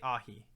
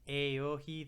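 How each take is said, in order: First: The name is said with two syllables. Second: The name is said with three syllables. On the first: "So I'm going to say Ahi" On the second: "that's like too many syllables. It's three syllables for four letters"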